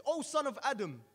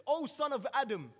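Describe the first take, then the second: First: Higher, louder menacing call; threatening roar. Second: Slow, much higher and louder proclamation; deafening angel voice. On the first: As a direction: roar the name down at him. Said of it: "responds with a threatening roar". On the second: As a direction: draw out the call like a verdict from heaven. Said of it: "responds in a deafening tone". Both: Acted.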